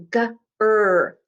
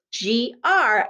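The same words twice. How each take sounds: First: "G-R" as the sounds guh, er; letter sounds. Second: "G-R" as the names gee, ar; name the letters in "G-R", gee and ar. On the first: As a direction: say "G-R" by sound, guh then a held er. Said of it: "I bet you heard those". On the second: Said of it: "I'm gonna write G and R". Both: Shown as a demonstration.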